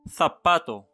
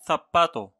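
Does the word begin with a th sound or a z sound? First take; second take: th sound; th sound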